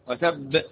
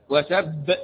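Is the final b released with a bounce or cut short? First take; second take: bounced; bounced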